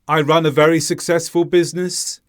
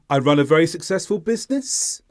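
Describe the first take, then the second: First: The pitch stays level throughout. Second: The pitch rises towards the end. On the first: "the intonation was flat" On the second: "the intonation rises towards the end, like this"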